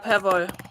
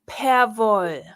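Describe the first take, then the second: First: The word is said quickly at normal volume. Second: The word is said slowly and loudly.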